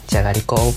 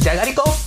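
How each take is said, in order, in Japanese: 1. 悲しげで哀愁のある口調で言われています。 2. 嬉しそうで楽しげな口調で言われています。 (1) "悲しくて" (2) "嬉しくて"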